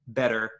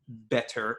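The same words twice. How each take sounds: First: The middle t is a quick d sound. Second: The middle t is a clear t sound. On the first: This is how it is said in American accents. "it becomes a, a da" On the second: This is not how it is said in American accents. "not better"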